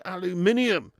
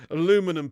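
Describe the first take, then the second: First: "aluminium" as al-yoo-MIN-ee-um; British aluminium. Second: "Aluminum" as uh-LOO-min-um; American aluminum. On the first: Shown as a demonstration. Streamer correcting the American word, "aluminium" as al-yoo-MIN-ee-um. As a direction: say "aluminium" in five syllables, stress on MIN. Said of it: "It's aluminium". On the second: Retold or imitated. Streamer citing the word that annoys him, "Aluminum" as uh-LOO-min-um. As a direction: say "Aluminum" in four syllables, stress on LOO. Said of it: "Aluminum pisses me off".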